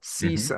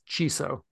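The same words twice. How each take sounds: First: The word is said as 'see-so'. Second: The word does not begin with 'see'. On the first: The speaker calls it right. "pronounce it as S-E-E-S-O" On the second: The speaker calls it wrong. "For whatever reason, Voice Dream pronounces it as CISO"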